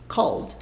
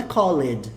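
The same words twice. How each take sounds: First: "Called" as one syllable, silent E; one-beat "Called" ending straight in D; correct pronunciation. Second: "called" split into "call-ed"; two-syllable mistaken "called"; wrong pronunciation. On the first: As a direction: say "Called" like "cald", no vowel before the D. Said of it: "Mas como é que fala?". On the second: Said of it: "a pronúncia não é called". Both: Shown as a demonstration.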